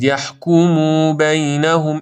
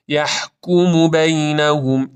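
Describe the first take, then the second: First: یحکمو بینهم with "muu" dragged out; too-long u in یحکمو بینهم; wrong overlong vowel. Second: Slow recited یحکمو بینهم with brief "mu"; measured یحکمو بینهم, short u; correct short vowel. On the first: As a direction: stretch the end of یحکمو into "yahkumuu". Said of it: "این اشتباس". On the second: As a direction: keep u in یحکمو to one beat. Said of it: "این درسته". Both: Shown as a demonstration.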